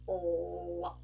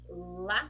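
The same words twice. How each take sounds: First: The L is dark, pulled back toward the throat. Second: The L is clear, made with the tongue tip forward. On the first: "For the dark sound, we are going to do la" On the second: "So for the L sound, you make a, you do like this with your tongue"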